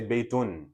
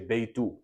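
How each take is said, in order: First: The word ends with an n sound. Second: The word ends with a short vowel. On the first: The speaker calls it wrong. "you don't say Baytun" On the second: The speaker calls it right. "you say Baytu. You make it light"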